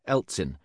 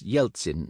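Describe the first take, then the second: First: The name begins with a plain 'e' sound. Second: The name begins with a 'ye' sound. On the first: The speaker calls it wrong. "not Eltsin" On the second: The speaker calls it right. "An E at the beginning of a Russian word is usually pronounced Ye, thus Yeltsin"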